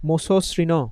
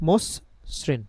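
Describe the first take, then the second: First: The word ends with a final vowel sound. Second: The word ends on a bare consonant. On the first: "আমরা যদি হসন্ত না দিতাম তাহলে উচ্চারণটা কি হতো?" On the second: "হসন্ত দেওয়াতে কি হচ্ছে?"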